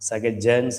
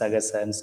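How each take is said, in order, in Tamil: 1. நடுவில் உள்ள மெய் 'j' ஒலி. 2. நடுவில் உள்ள மெய் 's' ஒலி. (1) "சகஜன்னு சொல்லாம" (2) "சகசன்னு சொல்றோம்"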